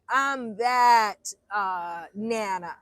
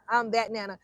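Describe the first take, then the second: First: Shouting it proudly about herself; emphatic shout. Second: Said in the usual way. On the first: Real, not acted. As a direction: belt it out with pride.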